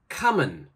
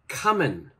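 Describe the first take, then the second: First: The final g sound is left off. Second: The same.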